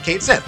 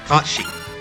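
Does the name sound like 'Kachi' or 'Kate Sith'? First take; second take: Kate Sith; Kachi. First: It is said as two words, Kate Sith. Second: It is said as one short word, Kachi. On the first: It follows the look of the spelling. The speaker calls it wrong. "it looks like Kate Sith. They pronounce it Kate Sith" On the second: It follows the real Gaelic pronunciation. The speaker calls it right. "it's supposed to be pronounced Kachi"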